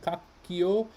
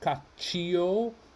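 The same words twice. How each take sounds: First: The middle consonant is a hard 'k' sound. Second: The middle consonant is a soft 'ch' sound. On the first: The speaker calls it right. "the H makes this C into a K" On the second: The speaker calls it wrong. "why is it not cacchio?"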